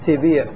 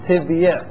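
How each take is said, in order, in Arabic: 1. تأتي بعد الباء كسرة طويلة دون ياء. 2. تأتي بعد الباء ياء صامتة مع حركتها الخاصة. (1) "نحدث فيها هذا النوع من النقل" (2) "فعندنا ياء في تبيع مكسورة وما قبلها ساكن"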